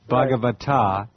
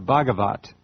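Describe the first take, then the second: First: The word ends with a final vowel sound. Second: The word ends on a consonant, vowel dropped. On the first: "it's B H A G A V A T A" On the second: "You left the last A off"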